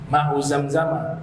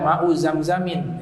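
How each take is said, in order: First: The word ends in a plain short 'a'. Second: The word ends with an added 'in' sound. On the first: The speaker calls it right. "tidak tanwin, ya, makanya dibaca fathah" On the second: The speaker calls it wrong. "Jangan dibaca"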